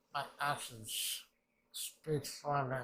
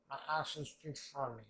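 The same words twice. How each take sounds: First: Slow, weighty line with MY and FOR leaned on; solemn declaration; slow emphatic. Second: Said in the usual way. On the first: Shown as a demonstration. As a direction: deliver "My actions speak for me" slowly, stressing "My" and "for".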